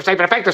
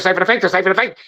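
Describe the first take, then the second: First: Said in the usual way. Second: Safe and effective, safe and effective rattled off fast; fast mocking rattle. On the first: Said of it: "if I say it enough time". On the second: Shown as a demonstration. Speaker mocking officials who repeat the slogan, fast rattle. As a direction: rush the slogan like a sales pitch. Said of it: "and I say it fast enough".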